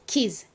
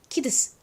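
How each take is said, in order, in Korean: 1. 끝이 합쳐져서 하나의 z 소리가 됩니다. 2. d와 s는 따로따로 발음됩니다. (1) "즈 발음이 됩니다" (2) "D 소리와 S 소리를 각각 발음을 하면요"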